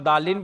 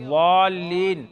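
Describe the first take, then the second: First: The word starts with a plain d sound. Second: The word starts with an emphatic ḍ sound. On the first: The speaker calls it wrong. "ना तो दाल के साथ दालीन पढ़ेंगे" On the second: The speaker calls it right. "किनारा जुबान ऊपर के दाढ़ों के बलाई हिस्से से मिलाकर"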